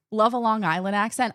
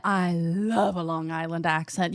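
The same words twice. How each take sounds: First: Said in the usual way. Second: Slow, lower, put-on Long Island accent. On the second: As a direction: drag it out like a Long Island local.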